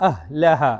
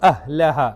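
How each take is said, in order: Both takes have the same delivery.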